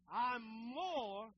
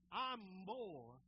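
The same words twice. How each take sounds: First: It is said loudly, with great energy. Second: It is said quietly, with little energy. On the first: The speaker calls it right. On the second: The speaker calls it wrong.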